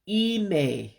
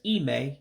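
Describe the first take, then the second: First: The final vowel is drawn out long. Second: The final vowel is short and clipped. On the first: The speaker calls it right. "It just means to drag it out when you pronounce it" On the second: The speaker calls it wrong. "instead of just ime"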